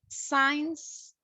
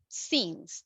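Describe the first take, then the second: First: The vowel sounds like the word 'eye'. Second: The vowel is a short 'i' sound. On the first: The speaker calls it wrong. "Sometimes we say signs" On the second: The speaker calls it right. "remember since. That's the correct one"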